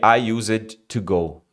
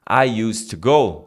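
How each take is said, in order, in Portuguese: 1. Used tem uma vogal extra antes do D. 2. Used não tem vogal extra antes do D. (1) "do que" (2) "É muito mais fácil você falar"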